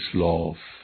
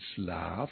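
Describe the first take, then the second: First: The vowel is a rounded 'oh' sound. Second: The vowel is an open 'ah' sound. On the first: This is the Swabian dialect form. "der wird zu «шлоф»" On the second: This is the standard German form. "In «шлаф»"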